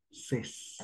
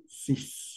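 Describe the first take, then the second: First: "Ses" whispered with an open e; French seize. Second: "Sis" whispered with a clear i; French six. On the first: Teacher contrasting seize with six. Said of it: "¿Cómo decimos dieciséis?". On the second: Teacher contrasting six with seize. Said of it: "¿Cómo decimos seis?". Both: Shown as a demonstration.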